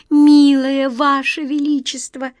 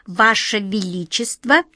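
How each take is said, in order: First: High, loud, slow trembling plea. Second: Said in the usual way. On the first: A narrator's reading. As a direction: beg with a shaking voice. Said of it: "дрожащим голосом сказала Ниточка".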